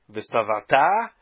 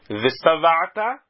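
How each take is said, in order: First: The stress falls on the final syllable. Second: The stress falls on the second-to-last syllable. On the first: The speaker calls it wrong. "Estou falando agora errado" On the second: The speaker calls it right. "paroxítona"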